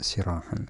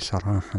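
First: The first syllable has the vowel 'i'. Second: The first syllable has the vowel 'a'. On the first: "بالكسر" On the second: "بالفتح كما هو واضح"

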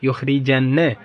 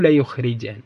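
First: The verb starts with yu, middle vowel i. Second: The verb starts with ya, middle vowel u. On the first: The mighty will drive someone else out. "شوفوا الياء مضمومة والراء مكسورة يعني متعدي" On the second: The mighty will go out by themselves. "بفتح الياء وضم الراء"

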